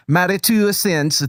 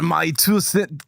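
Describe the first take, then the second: First: Second go at a fake Scottish accent; wobbly mock Scottish accent; attempted Scottish accent. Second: Accidental fake Russian accent; Scottish attempt sliding into Russian; mock Russian accent. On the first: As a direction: try to pull it back into Scottish. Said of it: "so Scottish accent?". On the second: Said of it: "That is just gonna be Russian now".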